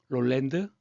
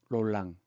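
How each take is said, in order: First: The name ends with a d sound. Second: The name ends without a d sound.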